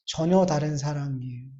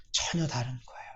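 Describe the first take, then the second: First: Said in the usual way. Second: 전혀 다른 거예요 dropped soft, falling away; softer echo. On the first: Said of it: "repeated line". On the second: Real, not acted. Preacher echoing his point to himself, softly. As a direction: let 전혀 sink into a quiet echo. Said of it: "repeated line, softer".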